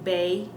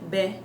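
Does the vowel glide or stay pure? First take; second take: glides; pure. First: The vowel glides toward an ee sound. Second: The vowel stays pure without gliding. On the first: The speaker calls it wrong. "I'm not saying bay" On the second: The speaker calls it right. "I'm saying B"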